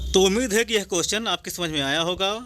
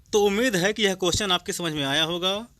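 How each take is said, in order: No difference in how they are said.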